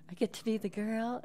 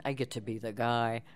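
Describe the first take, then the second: First: Put-on high-pitched girl character voice. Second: Lightly voiced guy, close to own pitch; a hint of a male character. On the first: Narrator listing audiobook parts, high girl voice. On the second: Narrator listing audiobook parts, lightly voiced guy. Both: Shown as a demonstration. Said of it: "you get to play all the characters".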